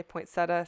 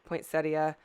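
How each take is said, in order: First: "poinsettia" in three syllables, ending in a plain -tuh; poinsetta variant. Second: "poinsettia" in four syllables, ending in -ee-uh; poinsettia variant. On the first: Crafter showing how some people say it, poinsetta variant. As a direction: say "poinsettia" as poin-SET-uh, no i before the final a. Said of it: "some s-, people say poinsettia". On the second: Crafter showing the other way people say it, four-syllable variant. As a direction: say "poinsettia" as poin-SET-ee-uh, with the i sounded. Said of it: "some people say poinsettia". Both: Shown as a demonstration.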